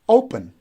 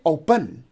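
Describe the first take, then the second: First: The stress is on the first syllable. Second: The stress is on the second syllable. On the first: The speaker calls it right. "the stress goes on the first syllable, we say open" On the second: The speaker calls it wrong. "We don't say open. If we say open, so then we are stressing the second syllable"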